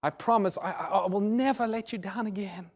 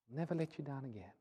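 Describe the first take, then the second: First: Higher, stumbling, earnest plea; pleading promise. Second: Very soft, falling echo of a vow; subdued, remorseful promise; hushed promise. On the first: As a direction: imitate a remorseful son swearing it to his father. Weeping son pleads with father. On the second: Promise repeated softly after weeping. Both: Retold or imitated.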